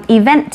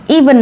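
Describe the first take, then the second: First: Event with the stress on "vent"; stress on second syllable. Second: Even with the stress on the opening "e"; stress on first syllable. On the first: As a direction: land on the final syllable of event. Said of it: "Trọng âm của từ event lại rơi vào vent". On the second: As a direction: lean on the long first vowel of even. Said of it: "Còn even thì trọng âm rơi vào y". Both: Shown as a demonstration.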